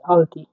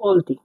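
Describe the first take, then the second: First: The first vowel is an open 'a' sound. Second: The first vowel is a rounded 'o' sound. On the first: It follows the written letters. "A L T I আলতি" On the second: It is how Kazakh speakers say it. "কাজাকরা এর উচ্চারণটা অ এর মতো করছে এখানে"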